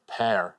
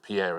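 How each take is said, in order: First: It is said the American way, like 'pear'. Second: It is said the British way, like French.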